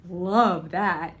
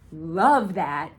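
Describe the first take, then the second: No difference in how they are said.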